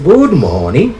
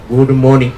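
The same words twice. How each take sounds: First: It is said with a questioning tune. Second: It is said as a plain statement. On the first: The speaker is asking how the listener is. "when I change my tone, I say good morning, I'll be asking a question" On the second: The speaker is wishing the listener a good morning. "that is a statement"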